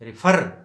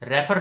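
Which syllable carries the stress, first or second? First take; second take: second; first. First: The stress is on the second syllable. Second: The stress is on the first syllable. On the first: The speaker calls it right. "एफ़ पे आके हम stress देंगे" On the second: The speaker calls it wrong. "Refer नहीं"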